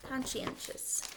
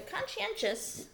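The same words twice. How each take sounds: First: Whispered word. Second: Conscientious said high and slowly, stressed; raised, emphatic word. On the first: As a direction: whisper the word Conscientious, slowly syllable by syllable. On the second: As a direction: lift the voice on conscientious, drawn out. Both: Shown as a demonstration. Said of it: "we've got this word conscientious".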